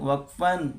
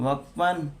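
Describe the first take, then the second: Both takes have the same delivery.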